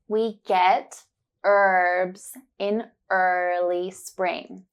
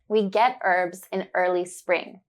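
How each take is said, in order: First: It is said slowly and carefully. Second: It is said at normal speed.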